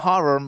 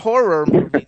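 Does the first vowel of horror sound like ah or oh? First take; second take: ah; oh. First: The first vowel of horror sounds like ah. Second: The first vowel of horror sounds like oh. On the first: This is the Brooklyn way to say it. The speaker calls it wrong. "not horror with an A" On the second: This is the American way to say it. The speaker calls it right. "in America, it's H-O"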